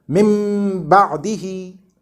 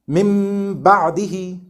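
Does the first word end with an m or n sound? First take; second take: m; m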